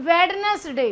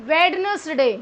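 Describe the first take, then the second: Both takes have the same delivery.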